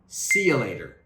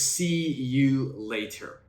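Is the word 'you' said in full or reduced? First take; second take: reduced; full. First: The word you is reduced to ya. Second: The word you is said in full. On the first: "in pronunciation, I'll say see ya" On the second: "if it's written, it says"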